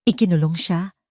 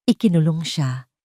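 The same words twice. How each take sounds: The two takes are said the same way.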